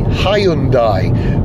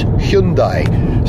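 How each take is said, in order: First: The name is said the common British way. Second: The name is said the Korean way. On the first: The speaker calls it wrong. "In Britain, we tend to call the company Hyundai" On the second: The speaker calls it right. "the correct Korean pronunciation is Hyundai"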